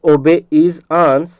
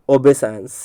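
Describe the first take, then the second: First: "obey is ans" slowly in separate pieces; broken into parts. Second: Said in the usual way. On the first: Shown as a demonstration. Teacher repeating the split for students, broken into parts. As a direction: leave gaps between the words of "obey is ans". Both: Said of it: "इसलिए इसको तोड़ करके बता रहा हूँ".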